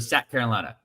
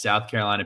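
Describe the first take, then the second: First: The first word has a short flat vowel. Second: The first word has a full 'ow' vowel.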